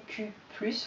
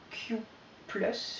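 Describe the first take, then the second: First: "Q plus" said the French way; French "Q" and "plus", run together; French pronunciation. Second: "Q plus" said the English way; "Q", a pause, then English "plus"; English pronunciation. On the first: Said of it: "je le fais en français cette fois". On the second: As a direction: say "Q plus" as English words, hesitantly. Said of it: "je sais pas si on prononce en anglais". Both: Real, not acted.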